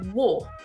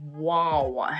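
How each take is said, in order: First: The vowel is said with small, rounded lips. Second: The vowel is said with a wide-open mouth. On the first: The speaker calls it right. "try to purse your lips a little bit more, so they're like a really small circle" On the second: The speaker calls it wrong. "he opens his mouth too much. He makes the sound super wide"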